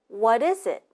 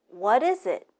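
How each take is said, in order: No difference in how they are said.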